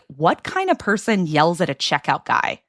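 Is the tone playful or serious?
serious. It is said in a plain, serious tone. The question sounds like a real criticism.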